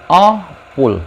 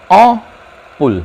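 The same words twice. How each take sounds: The two takes are said the same way.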